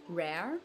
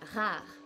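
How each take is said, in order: First: The R is an English-style R. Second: The R is a French-style R. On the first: "rare in English" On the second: "rare en français"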